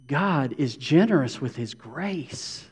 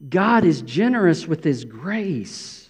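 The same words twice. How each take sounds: First: Slow, weighty "generous"; deliberate emphasis on "generous"; stress on generous. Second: Slow, "God" lifted and stressed; emphatic repeat stressing "God". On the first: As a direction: lean on "generous" with his grace. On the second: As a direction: land the word "God" first. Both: Shown as a demonstration. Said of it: "watch this".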